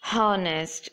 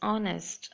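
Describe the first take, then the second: First: The word begins with an audible H sound. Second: The word begins with a vowel, no H sound. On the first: The speaker calls it wrong. "you shouldn't say it like honest" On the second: The speaker calls it right. "It's honest"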